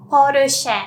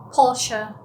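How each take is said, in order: First: "Porsche" loudly as "porushe"; Japanese pronunciation. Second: Said in the usual way. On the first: Shown as a demonstration. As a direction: say "Porsche" as po-ru-sheh, tapped R. English then Japanese brand demo.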